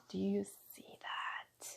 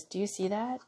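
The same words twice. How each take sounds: First: Slow, breathy whispered repeat; hushed and slow. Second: Said in the usual way. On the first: Real, not acted. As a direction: whisper it like a secret wonder.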